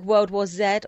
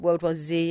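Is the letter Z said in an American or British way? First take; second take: British; American. First: The letter Z is said the British way. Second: The letter Z is said the American way.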